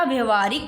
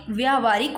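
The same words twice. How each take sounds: First: Short 'a' after व्य in व्यवहारिक; व्यवहारिक as 'vya-va-haa-rik', first vowel short; mispronounced short first vowel. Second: Long 'aa' in the first syllable of व्यावहारिक; correct long vowel. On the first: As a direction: say व्यवहारिक with 'vya' kept short. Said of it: "ये नहीं होता". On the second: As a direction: say व्यावहारिक as 'vyaa-va-haa-rik'. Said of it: "व्यावहारिक होता है". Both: Shown as a demonstration.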